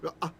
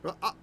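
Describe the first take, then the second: First: A deep throaty consonant is sounded mid-word. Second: A deep throaty consonant is sounded mid-word.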